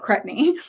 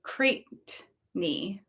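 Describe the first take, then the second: First: The first syllable rhymes with jet. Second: The first syllable rhymes with day. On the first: The speaker calls it right. "Cret rhymes with jet" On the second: The speaker calls it wrong. "like cray"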